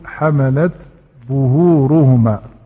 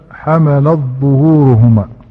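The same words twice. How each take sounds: First: The t is pronounced clearly before the z sound. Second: The t merges into the following z sound. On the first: The speaker calls it right. "ولكن يقول حملت ظهورهما فيظهر التاء" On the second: The speaker calls it wrong. "لا يقول مثلا"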